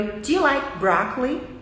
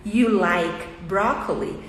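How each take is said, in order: First: "Do you like broccoli" linked, Do shrunk to a quick d; reduced auxiliary. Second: "you like broccoli" said slowly, word by word; each word full and apart, falling at the end; separated words. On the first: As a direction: run "Do you" into one syllable, broccoli rising. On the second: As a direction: spell out "you like broccoli" at a careful, slow pace. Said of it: "o do". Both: Shown as a demonstration.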